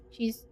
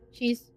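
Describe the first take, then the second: No difference in how they are said.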